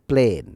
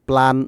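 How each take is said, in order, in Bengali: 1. স্বরধ্বনিটি 'day'-এর 'ay'-এর মতো শোনায়। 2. স্বরধ্বনিটি 'cat'-এর 'a'-এর মতো শোনায়। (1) "এটা প্লেন হবে" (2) "প্ল্যান না, প্ল্যান বলে অনেকে"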